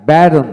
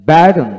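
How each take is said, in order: Both takes have the same delivery.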